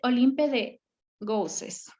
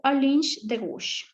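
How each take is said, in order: First: The name is read letter by letter, as spelled. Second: The name is said with French pronunciation. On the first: The speaker calls it wrong. "Así tal y como está escrito" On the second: The speaker calls it right. "como está en francés y se tiene que pronunciar diferente"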